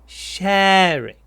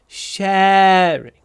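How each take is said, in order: Both takes have the same delivery.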